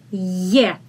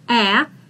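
First: It starts with a soft 'y' sound. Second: It starts with a plain vowel sound. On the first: The speaker calls it right. "it's ye, this one is soft" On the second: The speaker calls it wrong. "It's not a"

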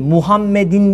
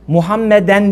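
First: The word ends with the sound -in. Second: The word ends with the sound -en. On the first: "değil" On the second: "değil"

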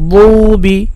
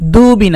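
First: The d sound is emphatic, from the tongue root. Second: The d sound is plain, like dal. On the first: The speaker calls it right. "জিব্বার গোড়া দিয়ে" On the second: The speaker calls it wrong. "দুবি না, দু বললে তো দাল হয়ে যায়"

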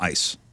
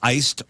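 First: The word ends without any d sound. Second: The word ends with an audible d sound. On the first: "So you say iced or ice?" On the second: "So you say iced or ice?"

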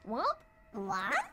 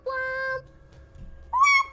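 First: It is said in a confused tone. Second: It is said in a happy tone.

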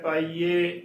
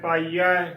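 First: The word ends with an 'e' vowel. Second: The word ends with an 'aa' vowel. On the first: The speaker calls it wrong. "ਪਾਈਏ ਗਲਤ ਉਚਾਰਨ ਹੈ" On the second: The speaker calls it right. "ਐੜੇ ਨੂੰ ਦਲਾਵਾਂ ਹੈ"

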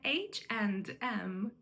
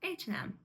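First: The 'and' keeps a clear final 'd' sound. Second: The 'and' is reduced with no 'd' sound. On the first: The speaker calls it wrong. "Не H&M" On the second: The speaker calls it right. "Там нема «д», тому що воно скорочується"

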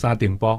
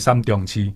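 First: The name is read with its colloquial pronunciation. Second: The name is read with its literary pronunciation. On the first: It is the everyday folk reading. "但是民间念作沙顶坡" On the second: It is the official, scholarly reading. "读书人叫三重七"

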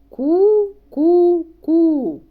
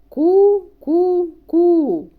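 No difference in how they are said.

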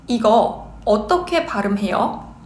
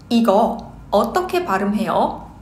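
Both takes have the same delivery.

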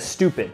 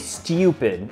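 First: It is said in an American accent. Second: It is said in a British accent. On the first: "instead of stupid" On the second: "they say stupid"

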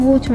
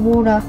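First: It is said in a British English accent. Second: It is said in an American English accent. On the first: "I'm English, so I say water" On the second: "or whatever Americans say"

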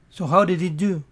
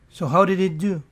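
No difference in how they are said.

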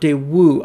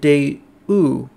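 First: The W sound is clear and strong. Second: The W sound is soft and weak. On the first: "I've always heard it with the W pronounced more strongly than that" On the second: "It's interesting how he pronounces it Daewoo"

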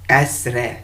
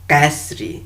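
First: The word ends in an 'e' sound. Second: The word ends in an 'i' sound. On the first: The speaker calls it right. "bu da E olması gerekiyor tamlama olduğu için" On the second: The speaker calls it wrong. "I yoktur Farsça'da mesela"

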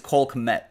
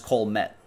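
First: The K sound is pronounced before the M. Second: The K is silent and the name starts with M. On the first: "Or do you think it's Cole Kmet?" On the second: "You think that's a silent K? ... just Cole Met?"

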